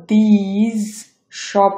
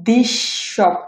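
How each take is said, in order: First: These drawn out slowly with a separate final s/z before shop; unassimilated wrong take. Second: This said slowly as "dish" into shop; assimilated S. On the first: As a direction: keep the hissed end of these apart from shop. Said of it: "হচ্ছে না". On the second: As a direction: stretch one sh from this into shop. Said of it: "হচ্ছে". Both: Shown as a demonstration.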